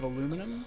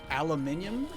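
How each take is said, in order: First: It is said in the American form. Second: It is said in the British form. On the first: "instead of aluminum" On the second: "British people, right? They say uh, aluminium"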